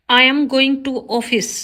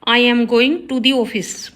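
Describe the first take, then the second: First: Slow, careful read of the wrong sentence; slow teacher dictation. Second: Slow, careful read of the corrected sentence; slow teacher dictation. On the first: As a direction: spell it out word by word for the class. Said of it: "wrong है". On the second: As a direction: lay out each word clearly for the class. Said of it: "right होगा". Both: Shown as a demonstration.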